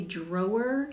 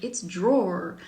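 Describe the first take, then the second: First: "drawer" said in two syllables, like "draw-er" or "drow-er"; old pronunciation. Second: "drawer" in one syllable, rhyming with "door"; corrected pronunciation. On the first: Shown as a demonstration. Author shows how she used to say it, two-syllable "drawer". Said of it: "self-conscious about the way that I pronounce that word". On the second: Retold or imitated. Ransom corrects the author's word, one-syllable "drawer". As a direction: run "drawer" together as a single syllable, "dror". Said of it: "and then Ransom was like".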